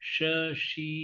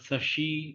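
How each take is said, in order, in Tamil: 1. சொல் sh ஒலியில் தொடங்குகிறது. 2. சொல் சாதாரண s ஒலியில் தொடங்குகிறது.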